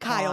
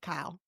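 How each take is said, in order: First: The name is said without a Texan accent. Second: The name is said with a Texan accent. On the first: This is the speaker's own way of saying it. "But I say Kyle" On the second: This is how a Texan family says it. "his whole family's Texan and they say Kyle"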